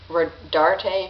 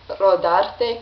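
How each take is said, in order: First: The name is said in an American way. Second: The name is said in a non-American way.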